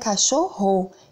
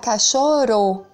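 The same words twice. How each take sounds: First: The middle r sound is strong. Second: The middle r sound is weak. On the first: The speaker calls it right. "A gente pronuncia" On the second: The speaker calls it wrong. "Se fosse um R só"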